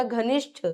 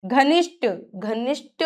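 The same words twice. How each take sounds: First: घनिष्ठ softer, ending in puffed ṭha; "ghanishṭha", aspirated finish. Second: घनिष्ठ ending in plain ṭ; no puff ending घनिष्ठ; unaspirated error. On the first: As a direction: puff out the end of घनिष्ठ. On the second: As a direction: say घनिष्ठ wrongly as "ghanishṭa". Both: Shown as a demonstration. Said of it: "ट और ठ की अशुद्धियां".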